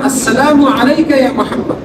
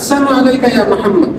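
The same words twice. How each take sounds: First: The L sound in the first word is pronounced. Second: The L sound in the first word is dropped. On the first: It wishes peace upon the listener. The speaker calls it right. "অথচ বলা উচিত ছিল" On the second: It wishes death upon the listener. The speaker calls it wrong. "শব্দটা উচ্চারণ করেছে এভাবে"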